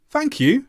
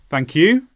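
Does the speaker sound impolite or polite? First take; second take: polite; impolite. First: High pitch on thank, lower on you. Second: Said without the high-then-low polite tune. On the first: The speaker calls it right. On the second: The speaker calls it wrong.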